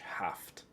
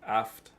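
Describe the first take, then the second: First: The word starts with a clear H sound. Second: The word starts with a vowel, no H sound. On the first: The speaker calls it wrong. "You don't really say it with the H. Haft. You don't say that" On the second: The speaker calls it right. "you don't really say the H. It's just Aft Mewa"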